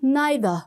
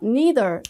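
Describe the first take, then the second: First: It is said with a British pronunciation. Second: It is said with a non-British pronunciation.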